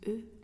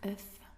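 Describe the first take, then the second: First: The word ends on a vowel, with no f. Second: The word ends with a clear f sound. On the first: There are several eggs. "on prononce E" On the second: There is only one egg. "quand il n'y en a qu'un, on prononce œuf"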